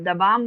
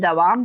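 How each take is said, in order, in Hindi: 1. बीच का व्यंजन "b" ध्वनि है। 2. बीच का व्यंजन "v" ध्वनि है। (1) "दबाम बोलते हैं तो ये गलत हरूफ है" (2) "दवाम बोलते हैं तो ये सही हरूफ है"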